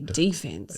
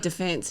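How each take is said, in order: First: It is said with an American pronunciation. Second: It is said with an Australian pronunciation. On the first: "Americans say defense" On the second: "We say defense"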